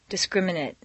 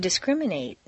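First: The final syllable has a reduced vowel. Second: The final syllable has a full 'ate' vowel. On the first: It is used as a noun or adjective. "completely reduced" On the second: It is used as a verb. "it's a full A sound"

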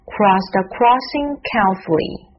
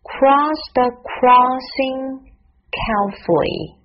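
First: It is said at normal speed. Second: It is said slowly.

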